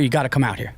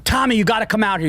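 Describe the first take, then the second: First: Said in the usual way. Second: Mock yell, high and fast; imitating a frantic shout to Tommy; retold screaming. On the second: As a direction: call him out urgently, half-shouting. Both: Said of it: "and they're screaming".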